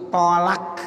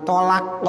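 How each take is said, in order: First: "tolak" ending in light released k; drawn "tolak", k instead of qaf; kaf ending. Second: Proper "tolak", final qaf; qaf ending. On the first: Teacher showing the lay form, "tolak" ending in kaf. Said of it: "pakai kap". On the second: Teacher showing the proper form, "tolak" ending in qaf. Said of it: "tapi tolak pakai kap". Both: Shown as a demonstration.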